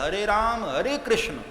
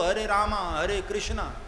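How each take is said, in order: First: The names end without an added final vowel. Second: The names end with an added final 'a' vowel. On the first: This is the original form of the mantra. The speaker calls it right. "मूल मंत्र है" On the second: This is how English speakers say it. The speaker calls it wrong. "अंग्रेजों को बोलना नहीं आता है तो वो"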